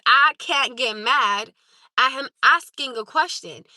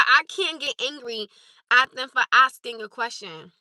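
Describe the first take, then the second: First: "I can't get mad" read out slowly, word by word, leaning on each; slow pointed reread. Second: Said in the usual way. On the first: Shown as a demonstration. Streamer rereading a chatter's message slowly and pointedly. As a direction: spell it out slowly to prove the point. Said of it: "Again, for the second time". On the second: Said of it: "I'm gonna reread what you said".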